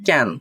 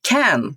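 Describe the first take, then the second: First: The first k has no puff of air. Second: The first k has a puff of air. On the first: The speaker calls it wrong. "Not a ক্যান" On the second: The speaker calls it right. "এরপর হচ্ছে ক্যান"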